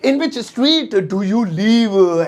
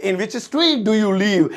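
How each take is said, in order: First: Even slower, word by word, a different voice; stretched, syllable by syllable; slower repeat. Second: Slow, clear English; teacher modelling the sentence; each word spaced out; slow model sentence. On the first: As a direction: drill it for the class. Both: Shown as a demonstration. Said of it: "तुम कौन सी गली में रहते हो".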